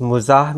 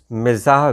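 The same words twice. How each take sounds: First: "मुजाह", opening on mu, then a long aa; first vowel of "मुजाह" as a short u; pronounced "मुजाह". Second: "मिजाह", opening on mi, then a long aa; first vowel of "मिजाह" as a short i; pronounced "मिजाह". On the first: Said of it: "इसका तलफ़ुज़ मुजाह मिला". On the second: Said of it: "इसका तलफ़ुज़ मिजाह भी है". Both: Shown as a demonstration.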